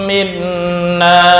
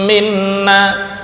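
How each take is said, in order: No difference in how they are said.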